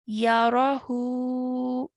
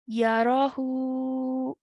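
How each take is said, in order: First: The word ends on a stretched vowel sound. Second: The word ends on a stretched vowel sound.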